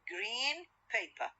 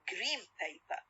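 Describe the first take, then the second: First: Green ends with a clear n sound. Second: Green ends with an m sound. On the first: "لوحدهم green و paper" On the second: "The N sound will be what? Will be changed into what? Into M sound"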